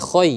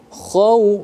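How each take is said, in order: First: The syllable ends with an 'oy' sound. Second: The syllable ends with an 'aw' sound. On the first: The speaker calls it wrong. "bukan khoy" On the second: The speaker calls it right. "khaw bukan khoy ya"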